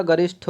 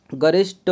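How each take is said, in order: First: गरिष्ठ said as garishṭho, puffed; correct aspirated ending. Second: गरिष्ठ said as garishṭo, no puff; wrong unaspirated ending. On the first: Teacher giving the correct word, गरिष्ठ with aspirated ठ. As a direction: release गरिष्ठ with a breathy ठ. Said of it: "गरिष्ठ होता है". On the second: Teacher showing the error, गरिष्ठ with plain ट. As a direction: drop the breath from गरिष्ठ, hard ट. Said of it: "गरिष्ठ नहीं होता". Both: Shown as a demonstration.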